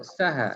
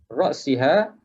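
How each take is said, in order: First: The vowel after the s is a. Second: The vowel after the s is i. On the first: The head was eaten too. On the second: Eating stopped at the head.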